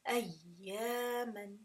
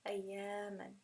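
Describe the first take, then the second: First: The doubled ya gets a small push of emphasis. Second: The doubled ya glides smoothly without any emphasis. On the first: The speaker calls it right. "you can actually hear that little inflection of sound in the ya" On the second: The speaker calls it wrong. "Otherwise it would just be ayyaman. And that would be incorrect"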